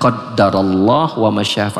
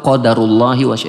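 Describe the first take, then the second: First: The word ends on the consonant h. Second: The word ends with an added i vowel. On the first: "Kadang dibaca qadarullah wa masya'a" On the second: "atau qadarullahi wa masya'a"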